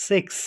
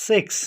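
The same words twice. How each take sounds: Both takes have the same delivery.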